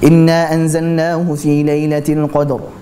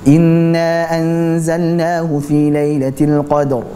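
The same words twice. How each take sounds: First: The nasal sound in inna is cut short. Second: The nasal sound in inna is held long. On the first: The speaker calls it wrong. "sehingga bacanya seperti ini" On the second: The speaker calls it right. "Harusnya tahan dulu"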